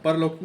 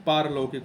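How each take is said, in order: First: परलौकिक said with a short first a, as the mistaken spelling; wrong form shown. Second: पारलौकिक said with a long aa in the first syllable; correct form shown. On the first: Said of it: "परलौकिक नहीं". (परलौकिक को छोटे अ के साथ गलत रूप में बोलें) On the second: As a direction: stretch the पा in पारलौकिक as the right form. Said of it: "पारलौकिक होता है". (पारलौकिक को लंबे आ के साथ सही रूप में बोलें) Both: Shown as a demonstration.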